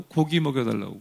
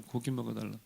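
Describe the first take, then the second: First: Said in the usual way. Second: 고기 먹여달라고 said much softer, trailing away; softly repeated. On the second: Shown as a demonstration. Preacher echoing the people's demand, softer and fading. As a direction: let 고기 먹여달라고 fall to almost nothing.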